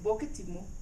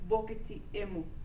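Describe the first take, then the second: First: No vowel sound is heard before "mu". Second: A vowel sound is heard before "mu". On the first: The speaker calls it right. "We just say bokitimu" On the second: The speaker calls it wrong. "we do not say bokiti emu"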